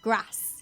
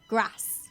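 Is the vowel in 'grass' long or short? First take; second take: short; short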